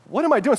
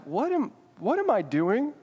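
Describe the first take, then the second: First: Higher, sharper "What am I doing?"; a touch of panic rising; alarmed. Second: Slow, higher, softer "What am, what am I doing?"; mild creeping dread; uneasy. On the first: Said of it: "start freaking out". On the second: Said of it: "your heart starts beating kinda fast". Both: Pretend.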